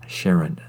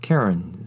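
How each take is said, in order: First: The name is pronounced differently from its spelling. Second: The name is pronounced the way it's spelled. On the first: The speaker calls it right. "because of the unique language of the halflings, it is Caron" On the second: The speaker calls it wrong. "people might mispronounce this origin city in particular because it's spelled like Caron"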